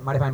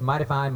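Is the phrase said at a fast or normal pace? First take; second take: fast; normal. First: The phrase is said quickly, run together. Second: The phrase is said at a normal pace. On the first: "we were trying to learn how to say it fast" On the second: "the operative phrase in bluegrass"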